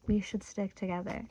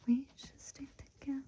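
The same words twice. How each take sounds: First: Said in the usual way. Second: Soft, higher whispered repeat. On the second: Shown as a demonstration. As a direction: breathe the line back as a secret. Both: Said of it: "the same line repeated as a whisper".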